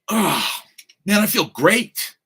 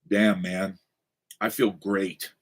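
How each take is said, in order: First: It sounds upright, bright and upbeat. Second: It sounds slumped, low and deflated.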